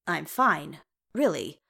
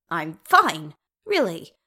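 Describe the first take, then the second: First: Said in the usual way. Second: Louder, voice jumping up as it cracks; insist, with the voice cracking. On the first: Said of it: "Bilbo winced when his voice cracked". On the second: A narrator's reading. Bilbo insists to the royals he is fine, voice cracking. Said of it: "when his voice cracked".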